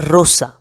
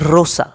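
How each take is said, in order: Both takes have the same delivery.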